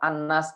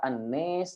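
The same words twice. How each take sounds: First: The long vowel is a plain open a. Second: The long vowel is shifted toward e.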